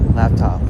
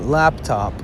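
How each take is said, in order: First: The P in the middle is barely pronounced. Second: The P in the middle is clearly pronounced.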